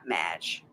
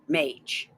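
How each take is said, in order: First: The word does not rhyme with sage. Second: The word rhymes with sage. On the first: The speaker calls it wrong. "Not mage" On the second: The speaker calls it right. "Rhymes with sage"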